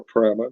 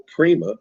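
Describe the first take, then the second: First: "Prima" said with a long i, PRY-ma; alternative pronunciation of Prima. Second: "Prima" said with an ee, PREE-ma; first pronunciation of Prima. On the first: Host offering another ship name reading, "Prima" as PRY-muh. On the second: Host naming the cruise ship, "Prima" as PREE-muh. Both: Shown as a demonstration. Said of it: "depending on how you say that".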